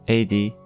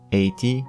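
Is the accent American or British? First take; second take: American; British. First: It is said in an American English accent. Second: It is said in a British English accent. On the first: "American English pronunciation" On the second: "British English"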